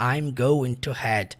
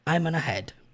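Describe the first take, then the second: First: Every word of "going to" is said in full. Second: "Going to" is squeezed into one short "gonna". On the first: "ele não fala desse jeito" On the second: "ele fala I'm gonna head"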